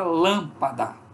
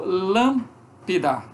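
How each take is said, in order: First: All three syllables are said with full vowels. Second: The middle vowel is weakened to an i sound. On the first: "com a palavra lâmpada" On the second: "Mas é mais como lâmpida do que lampa"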